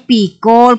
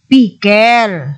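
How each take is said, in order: First: The last syllable has a full 'o' vowel. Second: The last syllable has a reduced weak vowel. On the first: The speaker calls it wrong. "Hindi na pikol kung mag-pronounce" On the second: The speaker calls it right. "kundi pickle"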